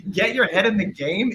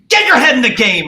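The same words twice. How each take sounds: First: Higher, questioning retort, not shouted; incredulous echo. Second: Imitating Richard Kind yelling, high and loud; retold angry shout. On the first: Retold or imitated. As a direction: throw it back as a disbelieving question. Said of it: "And I was like". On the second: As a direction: bellow it as a competitive player's outburst. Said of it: "and he goes".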